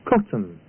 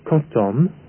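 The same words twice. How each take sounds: First: The second syllable is short and reduced. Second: Both syllables are given equal, full weight. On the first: The speaker calls it right. "the first syllable is stressed. The second is unstressed" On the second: The speaker calls it wrong. "The word is not pronounced cotton"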